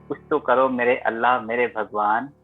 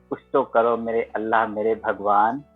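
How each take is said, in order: Both takes have the same delivery.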